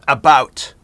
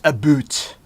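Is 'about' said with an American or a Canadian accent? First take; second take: American; Canadian. First: It is said with an American accent. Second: It is said with a Canadian accent. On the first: The speaker calls it wrong. "it's not about" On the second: The speaker calls it right. "That's the right way to say it. I'm Canadian"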